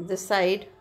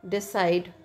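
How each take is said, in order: Both takes have the same delivery.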